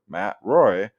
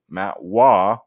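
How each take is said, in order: First: The surname ends in an 'oy' sound. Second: The surname ends in an open 'wah' sound. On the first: It follows the usual English reading of the spelling. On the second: It follows the French-style way of saying the name.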